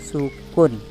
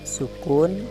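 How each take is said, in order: No difference in how they are said.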